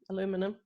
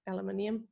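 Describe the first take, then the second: First: The word is said the American way. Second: The word is said in a non-American way.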